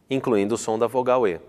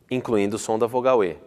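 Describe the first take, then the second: No difference in how they are said.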